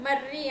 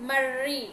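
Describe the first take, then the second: First: మర్రి with a short double r; ordinary doubled r. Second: మర్రి with a long rolled r; strong bandi-ra trill. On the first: Teacher contrasts spellings for pupils, compact rr in మర్రి. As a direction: keep the rr in మర్రి compact, without a long trill. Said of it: "ఇక్కడైతే మర్రి అంటాం". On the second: Teacher demonstrates bandi-ra to pupils, strongly trilled rr in మర్రి. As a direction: roll the rr hard in మర్రి. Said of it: "ఈ బండిరా రాసినప్పుడు ఎలా పలుకుతాము". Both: Shown as a demonstration.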